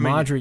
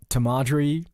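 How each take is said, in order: First: The name begins without a t sound. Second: The name begins with a t sound. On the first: The speaker calls it right. "you don't pronounce the T" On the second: The speaker calls it wrong. "No, Marjorie, sorry"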